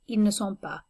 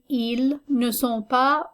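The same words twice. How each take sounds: First: It is said quickly, run together. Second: It is said at a careful, normal pace.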